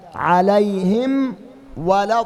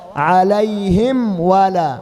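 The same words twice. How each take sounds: Both takes have the same delivery.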